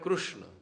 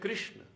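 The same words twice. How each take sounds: First: It is said the way Gujarat speakers say it. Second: It is said the way Uttar Pradesh speakers say it. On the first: "અહીંયા ગુજરાતમાં બોલો તો બોલાય કૃષ્ણ" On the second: "ઉત્તર પ્રદેશમાં જાઓ તો ... ત્યાં બોલાશે કૃષ્ણ"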